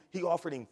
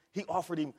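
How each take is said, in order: Both takes have the same delivery.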